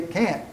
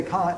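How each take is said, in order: First: Kant rhyming with "ant"; British saying of Kant. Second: Kant with a long open "ah"; British "can't" sound. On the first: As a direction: say Kant like American "can't". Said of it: "That's how British people say it". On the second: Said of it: "they say what we mean". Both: Shown as a demonstration.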